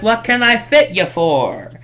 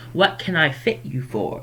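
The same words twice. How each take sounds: First: High, lilting customer greeting; overdone chirpy shopkeeper, pitched up; cheery shopkeeper. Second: Lightly voiced shopkeeper greeting; a milder, easy customer welcome; toned-down shopkeeper. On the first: Acted. Shopkeeper greeting a festival customer, high and cheery. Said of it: "she's very happy to see a customer". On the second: Shopkeeper greeting a customer, toned down and casual. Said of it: "I do all my characters like that".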